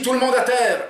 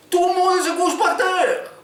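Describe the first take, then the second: First: High, loud order spoken plainly; [name] repeating the order clearly, without the accent; clear command. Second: Very high, slow, loud yell in a hammed-up Arabic accent; overdone Arabic accent. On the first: Acted. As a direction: repeat it so everyone understands. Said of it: "répète [name]". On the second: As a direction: overdo the Arabic accent until no one understands. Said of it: "il a exagéré l'accent".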